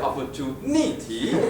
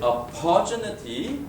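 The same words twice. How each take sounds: First: The stress is on the fourth syllable. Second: The stress is on the second syllable.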